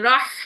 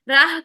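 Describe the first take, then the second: First: The h is a strong breathy hiss. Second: The h is a plain light breath. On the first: The speaker calls it right. "ठंडी सांस वाली" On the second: The speaker calls it wrong. "राह करेंगे तो गोल हा बन जाएगी, गलत है"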